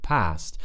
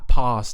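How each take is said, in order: First: The A is a short front vowel. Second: The A is a long, open back vowel. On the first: "instead of" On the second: "pa- past"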